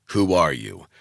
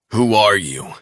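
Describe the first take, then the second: First: Said in the usual way. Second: Seething. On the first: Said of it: "Last time". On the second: A narrator's reading. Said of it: "he seethed".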